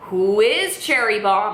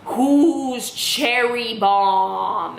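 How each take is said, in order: First: "is" pushed up and louder in "who is"; puzzled echo. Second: Very slow, drawn-out cryptic question; riddling mom. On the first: Daughter throwing mom's riddle back, puzzled stress on "is". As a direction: slowish baffled question, leaning on "is". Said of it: "And I'm like". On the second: Mom repeating her riddle to a baffled daughter, cryptic. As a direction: intone it like a riddle, every word stretched. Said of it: "like it's like a riddle". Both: Retold or imitated.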